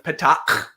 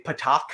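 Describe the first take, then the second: First: Patak ending in a harsh throat scrape; harsh guttural ending. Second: Patak with a simple English k ending; show's mispronunciation. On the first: Teacher naming the classic Klingon insult, harsh guttural ending. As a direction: grind out the last consonant of Patak. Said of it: "the super harshest guttural sound". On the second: Teacher quoting the show's wrong version, plain k ending. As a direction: end Patak on an ordinary k, no throat scrape. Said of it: "that's not the correct way to say it". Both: Shown as a demonstration.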